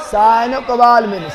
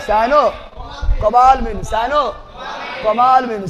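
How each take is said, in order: First: Said in the usual way. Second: cyanocobalamin drawn out slowly, every syllable spaced; teacher slows cyanocobalamin down so students can repeat it, slow; slow syllable drill. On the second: Shown as a demonstration.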